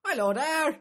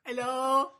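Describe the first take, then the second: First: Put-on very high, loud Australian accent; mock Australian accent. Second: Very high, loud Australian hello; mock Australian accent. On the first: Comic doing a hammed-up Australian greeting. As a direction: chirp it like a hammed-up Aussie. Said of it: "Scottish one". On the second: Comic repeating the hammed-up Australian hello. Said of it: "That's Australia, isn't it".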